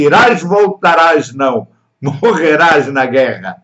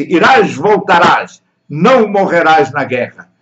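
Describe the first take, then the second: First: Slow, pause after não; Irás, voltarás, não, morrerás na guerra with a clear break after "não"; "não" set apart, then "morrerás na guerra"; comma after não. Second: "não morrerás" run together; "não" joined straight onto "morrerás"; no comma. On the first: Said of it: "uma pequena vírgulazinha". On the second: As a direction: read "não morrerás na guerra" as one phrase. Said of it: "Não foi isso que eu disse". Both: Shown as a demonstration.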